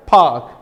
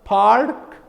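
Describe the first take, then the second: First: "park" with the R dropped; non-rhotic. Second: "Park" with a clearly pronounced R; rhotic. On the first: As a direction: say "park" as a long open vowel, no R. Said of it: "Here it is simply park". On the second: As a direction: sound out the R in "Park". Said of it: "In rhotic, it will be". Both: Shown as a demonstration.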